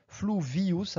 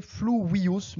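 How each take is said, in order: First: "fluvius" with a buzzed French V. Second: "fluvius" said "flu-wi-us", with a W; slow "fluvius", W in place of V; correct Latin V. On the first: Teacher allowing the French way, "fluvius" with a French V. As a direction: say "fluvius" à la française, V not W. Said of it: "à la française fluvius avec un V français". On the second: Teacher giving the correct pronunciation, "fluvius" with a W. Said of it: "la prononciation correcte". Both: Shown as a demonstration.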